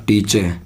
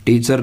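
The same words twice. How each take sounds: First: "टीचे" ending with no r; r-less "टीचे"; correct pronunciation. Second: "टीचर" with final r sounded; Indian-style "टीचर"; wrong pronunciation. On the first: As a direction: end "टीचे" on an open vowel. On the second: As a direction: pronounce the r ending of "टीचर". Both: Shown as a demonstration. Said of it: "नहीं उच्चारण होता".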